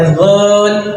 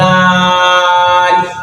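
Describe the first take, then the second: First: The vowel is short and clipped. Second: The vowel is drawn out long. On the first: The speaker calls it wrong. "इसको भी आपने ऐसे नहीं पढ़ना, रल नहीं पढ़ना" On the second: The speaker calls it right. "इसको हम खींचेंगे क्योंकि इस पर मद आती है"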